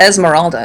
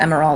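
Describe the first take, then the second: First: The name has an s sound after the first vowel. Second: The name has no s sound after the first vowel. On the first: The speaker calls it wrong. "It's not Esmeralda" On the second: The speaker calls it right. "it's just Emeralda"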